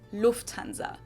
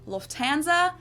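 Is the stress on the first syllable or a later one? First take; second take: first syllable; later one. First: The stress is on the first syllable. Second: The stress is not on the first syllable. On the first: This is how German speakers say it. "So the emphasis is on the first syllable" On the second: This is how English speakers say it. "Usually say Lufthansa"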